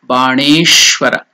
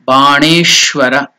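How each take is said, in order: Both takes have the same delivery.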